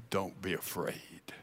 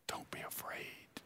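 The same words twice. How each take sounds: First: Much softer, lower, gently comforting; soft reassurance. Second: Whispered reassurance. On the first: Jesus gently reassuring the fallen John, softly. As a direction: say it low and soft to calm him. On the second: Jesus whispering comfort to the terrified John, whispered. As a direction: whisper it to calm a frightened friend. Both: Acted.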